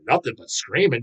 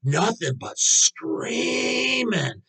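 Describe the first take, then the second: First: Said in the usual way. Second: Drawn-out high whine on screaming; mocking teacher voice. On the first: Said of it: "I'm thinking". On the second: Mocking the teacher's complaint, slow high whine. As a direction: stretch "Nothing but screaming" slowly and high like a fussy teacher. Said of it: "one of the teachers".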